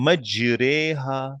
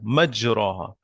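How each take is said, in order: First: The vowel before 'ha' is slanted toward 'e'. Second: The vowel before 'ha' is a plain open 'a'.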